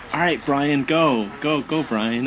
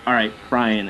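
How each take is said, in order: First: Raised, eager cheer of a group; bright hype-up call; cheering crowd. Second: Flat, falling, unimpressed echo; mock-weary acknowledgement; deadpan reply. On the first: Retold or imitated. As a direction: egg him on like a fan. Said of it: "I'll hear somebody just go". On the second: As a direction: answer with dry resignation. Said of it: "And I'll be like".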